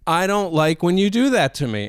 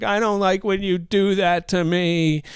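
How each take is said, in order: First: Said in the usual way. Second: Higher, crying child's complaint, imitated; put-on weepy protest; mock tearful whine. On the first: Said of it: "upset. She said". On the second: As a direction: whine it as if bursting into tears. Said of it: "And she starts crying".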